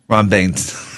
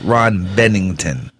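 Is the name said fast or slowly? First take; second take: fast; slowly. First: The name is said quickly and run together. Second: The name is said slowly with clear syllables. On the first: The speaker calls it wrong. "I try to say it too fast" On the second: The speaker calls it right. "That's the correct way"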